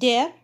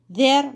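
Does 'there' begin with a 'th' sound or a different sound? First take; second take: different; th. First: It begins with a different sound, not 'th'. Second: It begins with a voiced 'th' sound. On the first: The speaker calls it wrong. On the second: The speaker calls it right. "Voiced TH mistakes some people make"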